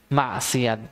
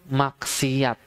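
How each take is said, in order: Both takes have the same delivery.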